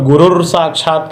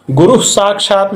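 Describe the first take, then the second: First: गुरुर साक्षात with an extra r sound added after गुरु; wrong form. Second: Said in the usual way. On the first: Shown as a demonstration. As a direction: mimic the incorrect गुरुर साक्षात that some people say. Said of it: "अशुद्ध कहते हैं". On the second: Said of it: "गुरु साक्षात में देखिए".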